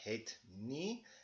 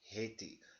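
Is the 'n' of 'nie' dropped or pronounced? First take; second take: pronounced; dropped. First: The 'n' of 'nie' is clearly pronounced. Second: The 'n' is absorbed, giving one word 'hetie'. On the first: "something like het nie" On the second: "we make it hetie"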